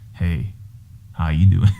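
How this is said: It is said in a put-on sexy voice.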